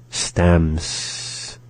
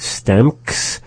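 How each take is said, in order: First: Slow STEMS, M running straight into a long S; without the K. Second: STAMKS with a K before the final S. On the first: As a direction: say "stems" slowly, with no K before the S. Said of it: "We are not saying it stamks, rather stems". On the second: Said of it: "We are not saying it stamks". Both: Shown as a demonstration.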